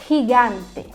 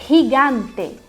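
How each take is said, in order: No difference in how they are said.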